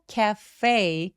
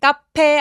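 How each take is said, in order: First: It is said as an English word. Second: It is said as a Korean loanword. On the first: The speaker calls it right. "cafe라고 소리 내주시면 됩니다" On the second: The speaker calls it wrong. "카페 아니고"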